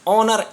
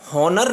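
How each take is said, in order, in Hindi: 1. शब्द की शुरुआत स्वर की ध्वनि से होती है। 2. शब्द की शुरुआत एच ध्वनि से होती है। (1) "एच साइलेंट हो गया" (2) "हॉनर नहीं बोल रहे हैं इसको हम"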